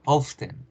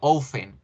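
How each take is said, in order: First: The T is lightly pronounced in the word. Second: The T is silent in the word. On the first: This is the British pronunciation. "O en el británico suena un poquito" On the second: This is the American pronunciation. "La T se desaparece en el americano"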